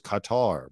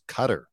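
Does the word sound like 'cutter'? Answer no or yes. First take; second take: no; yes. First: The word does not sound like 'cutter'. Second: The word sounds like 'cutter'. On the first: The speaker calls it wrong. "I always thought it was Qatar" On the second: The speaker calls it right. "I now know it's Qatar. As in like a knife is a cutter"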